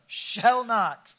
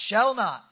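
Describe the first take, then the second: First: Shall not shouted loud and high with gusto; full-throated Shall not, louder and higher. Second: Loud, higher call to the congregation; lifted voice. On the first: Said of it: "you gotta say it with some gusto". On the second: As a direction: lift your voice and declare shall not. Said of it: "lift up your voice and say". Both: Shown as a demonstration.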